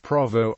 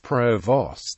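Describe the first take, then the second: First: It is pronounced differently from its spelling. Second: It is pronounced just as it is spelled. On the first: This is how the British Army says it. "The British Army pronunciation is" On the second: This is how the US Army says it. "the U S Army pronunciation is provost, as written"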